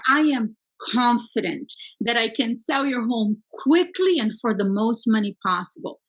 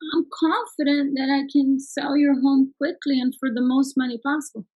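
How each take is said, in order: First: It is said with confident, high energy. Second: It is said with flat, low energy.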